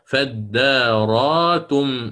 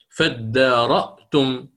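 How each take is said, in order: First: The hamza is replaced by a long vowel. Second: The hamza is pronounced as a glottal stop.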